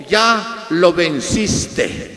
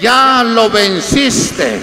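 First: Measured, very slow proclamation; retold divine voice, slow and restrained; voice from heaven. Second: Loud, very slow divine proclamation; retold heavenly voice, ringing out to the congregation. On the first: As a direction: draw out each word of a solemn pronouncement. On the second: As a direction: proclaim it forcefully, drawing out each word. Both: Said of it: "escuché la voz y me dijo".

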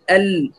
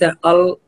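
First: ال said thin and light; light hamza and lam. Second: ال said thick and dark; heavy mispronunciation. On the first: Teacher contrasts right with wrong, light thin ال. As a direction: keep both sounds of ال light. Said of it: "الهمزة واللام ترقيق". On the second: Teacher shows what it is not, heavy dark ال. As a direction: darken ال into a heavy "ol". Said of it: "ليس ال". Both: Shown as a demonstration.

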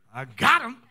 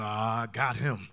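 First: Louder, open mock triumph; gloating wife. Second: Low, slow, drawn-out aside; sly wife. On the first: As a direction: crow over the trick that worked. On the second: Retold or imitated. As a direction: gloat privately as the scheming wife. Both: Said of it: "She go".

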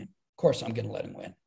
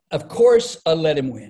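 First: Much lower and softer, confiding; quiet aside. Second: Loud mock-boast. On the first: Retold or imitated. Comedian repeating the line to the interviewer as a hushed aside. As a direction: drop it to a knowing murmur. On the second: Comedian telling the interviewer about the church race, loud and playful. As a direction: throw it out big, like an obvious joke. Clown race retold, punchline setup.

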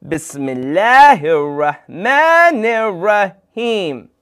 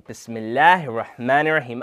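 First: Slow, loud, higher invocation; group-leading call. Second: Said in the usual way. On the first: Shown as a demonstration. Host leads everyone in saying Bismillah, loud and drawn out. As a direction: lead a crowd through it, drawing out each syllable. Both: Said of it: "I need everyone to say".

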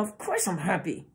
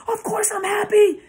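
First: Quiet, tightly held-back insistence; suppressed intensity. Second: Very high, loud screamed protest; demonstrated screaming. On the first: Narcissist hiding true feeling behind the words, restrained intensity. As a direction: keep the volume down with feeling pressing behind it. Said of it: "the intensity behind the words that are coming out". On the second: Speaker showing inflection that betrays the words, screaming. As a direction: scream it as if furious while claiming otherwise. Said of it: "start screaming on the camera". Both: Shown as a demonstration.

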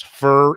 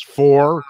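First: "fur" with a reduced r-vowel, like animal fur; sloppy pronunciation. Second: "for" with a full, drawn-out "or" vowel; proper pronunciation. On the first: Radio veteran recalls banned words, lazy "fur". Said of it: "there was no such word as". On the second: Radio veteran recalls school rules, careful "for". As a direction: say "for" slowly, with a clear O. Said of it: "You had to speak properly". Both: Shown as a demonstration.

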